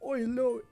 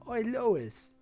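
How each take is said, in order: First: The voice is high and squeaky. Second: The voice is deep and low.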